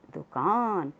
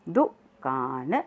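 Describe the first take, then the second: First: Said in the usual way. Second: दुकान drawn out slowly; slow syllable reading. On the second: Shown as a demonstration. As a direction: stretch दुकान for the class to echo. (दुकान धीरे-धीरे बोलकर) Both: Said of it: "साथ साथ बोलेंगे सब".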